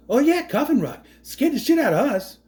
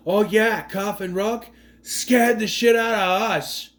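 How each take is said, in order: First: Higher, pushier Boston tough guy; hammed-up Boston bravado; Mark Wahlberg impression. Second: Lightly imitated Boston-New York accent, slow on the second line; a hint of a Boston tough guy; mock Boston accent. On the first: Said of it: "I would love Mark Wahlberg to play this role". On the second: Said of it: "I don't know what accent he's trying to do".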